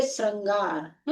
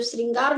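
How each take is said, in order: First: "श्रृंगार" drawn out as srangaar; a-vowel pronunciation. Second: "श्रृंगार" as sringaar, ri in the first syllable; i-vowel pronunciation. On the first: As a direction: say "श्रृंगार" slowly with an a: srang-gaar. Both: Shown as a demonstration. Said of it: "जो श्रृंगार नहीं लिखा देखेंगे".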